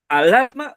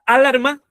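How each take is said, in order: First: The stress is on the middle syllable. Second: The stress is on the first syllable. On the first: The speaker calls it right. "la L" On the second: The speaker calls it wrong. "¿La A"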